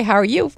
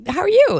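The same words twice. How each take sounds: First: Said in the usual way. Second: Very high, singsong echo of a greeting. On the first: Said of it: "somebody say". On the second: Acted. Passer-by returning a greeting without answering, high-pitched and perfunctory. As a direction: toss the question back high, falling at the end. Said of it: "we never answer either one's question".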